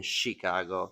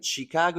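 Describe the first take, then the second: First: CHICAGO slower and lower, echoing a local; imitated local pronunciation. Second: CHICAGO with the speaker's own accent, rising at the end; own pronunciation. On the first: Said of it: "you're saying Chicago". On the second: Shown as a demonstration. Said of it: "I'm saying Chicago".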